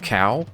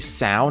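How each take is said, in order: First: The name begins with a K sound. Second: The name begins with an S sound. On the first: The speaker calls it wrong. "not cow" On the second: The speaker calls it right. "It's actually Sao"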